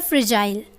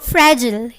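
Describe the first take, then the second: First: It is said in a British accent. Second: It is said in an American accent.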